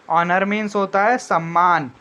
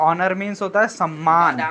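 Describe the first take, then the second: No difference in how they are said.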